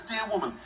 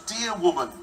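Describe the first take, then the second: First: Said in the usual way. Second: Amused. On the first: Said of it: "in some translations it says". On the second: Retold or imitated.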